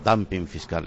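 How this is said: Dumping is said with an English pronunciation.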